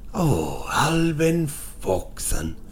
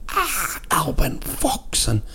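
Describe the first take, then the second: First: It is said as if blaming someone for misbehaving. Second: It is cried out as if in sudden pain.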